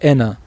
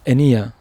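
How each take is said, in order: First: It has no y sound before the final vowel. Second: It has a y sound before the final vowel. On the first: This is the form of another dialect. "there is a dialect that would say ena" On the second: This is the form of the mother's home dialect. "my mother would say like enia because it's her dialect"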